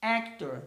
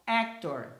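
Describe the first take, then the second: First: Actor repeated, stress on AC; English word actor. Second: Actor with stress on AC; English word actor. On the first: (repetição de "Actor") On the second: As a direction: model actor for the class. (pronúncia de "actor" com tônica em AC) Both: Shown as a demonstration. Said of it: "Então, ó".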